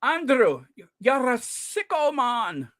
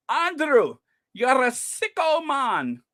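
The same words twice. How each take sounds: First: Put-on Scottish accent. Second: A light Scottish try, unrolled R's, slowed on sicko; attempted Scottish accent. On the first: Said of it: "that's how he said it". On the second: Quoting the Scottish heckler at Andrew, a light Scottish attempt. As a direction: have a go at the Scotsman's heckle. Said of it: "It's hard for me to roll those R's".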